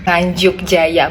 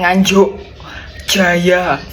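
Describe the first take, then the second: First: The consonants are light and unpressed. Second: The consonants are heavy and pressed. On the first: The speaker calls it right. "jangan diteken, jangan ngegas banget" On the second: The speaker calls it wrong. "bukan Nganjuk Jaya"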